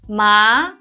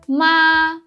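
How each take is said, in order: First: The pitch rises like a question. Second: The pitch stays high and level. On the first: It means numb. "it's a rising tone" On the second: It means mother. "it's high and flat"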